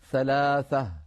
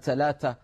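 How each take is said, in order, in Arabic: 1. تُنطق الحروف الصامتة كأصوات 'th'. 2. تُنطق الحروف الصامتة كأصوات 't'. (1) "لابد أن نقول ثلاثة، ثلاثة بالثاء" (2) "تحرف هذا الحرف إلى التاء ... ما بيصح"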